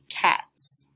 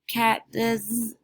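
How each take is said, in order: First: The word ends with a plain "s" sound. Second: The word ends with an extra "iz" syllable. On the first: The speaker calls it right. "this word has to be cats" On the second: The speaker calls it wrong. "that doesn't sound correct"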